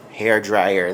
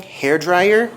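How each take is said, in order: First: Said in the usual way. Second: Higher and louder, rising like a happy find; delighted little exclamation, pitched up; excited discovery. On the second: Real, not acted. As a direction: announce it like you just found treasure. Finds hair dryer, then repeats.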